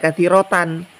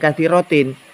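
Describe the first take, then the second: First: The word ends with the sound -an. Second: The word ends with the sound -in. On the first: The word is in the accusative case. The speaker calls it right. "seharusnya menurut pengetahuan saya Pak Kiai dibaca katsirotan" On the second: The word is in the genitive case. The speaker calls it wrong. "bukan katsirotin"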